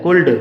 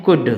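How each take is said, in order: First: Put-on कुल्ड with the l sounded, as small children misread it; wrong pronunciation. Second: कुड with the l silent, "kud"; correct pronunciation. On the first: Teacher imitating a child's misreading, कुल्ड with l. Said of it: "इसको ल पढ़ के चलते हैं ड". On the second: Teacher giving students the right reading, कुड. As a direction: skip the l and say कुड. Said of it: "कुल्ड ना पढ़ के". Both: Shown as a demonstration.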